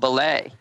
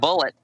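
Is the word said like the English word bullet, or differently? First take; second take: differently; like bullet. First: It is said differently from the English word bullet. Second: It sounds like the ordinary English word bullet. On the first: The speaker calls it right. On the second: The speaker calls it wrong.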